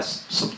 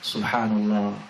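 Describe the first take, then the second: First: It is said very fast, clipped. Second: It is said slowly and calmly.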